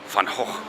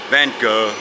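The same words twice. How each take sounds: First: Gogh ends with a throaty, guttural sound. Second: Gogh ends on the vowel, no final consonant. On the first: "in Dutch, the G is not a G. So it's Hoch" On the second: "which is what Americans do to it"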